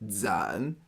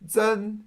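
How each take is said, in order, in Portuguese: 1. O tom desce para baixo e depois sobe. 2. O tom fica alto e nivelado.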